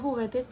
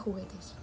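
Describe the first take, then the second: First: The word is said without the jota sound. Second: The word is said with the jota sound. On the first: The speaker calls it wrong. "aún no consigue pronunciar ni la ñ ni la jota" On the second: The speaker calls it right. "en vez de"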